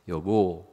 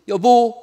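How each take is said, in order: First: It is said at a lower pitch. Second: It is said at a higher pitch. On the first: The speaker calls it wrong. "옛날에는 멋있게 여보 그랬으나" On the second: The speaker calls it right. "남자는 한음 높여서 말하면 돼요"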